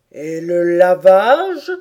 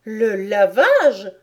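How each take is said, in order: First: Slow, loud probing turtle; tortue qui interroge. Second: Put-on loud, scornful little girl; mépris. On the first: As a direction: draw the question out heavily. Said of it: "fit la tortue". (tortue qui demande lentement, fort) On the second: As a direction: repeat it with disdain. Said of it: "répéta Alice avec mépris". (petite fille méprisante) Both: A narrator's reading.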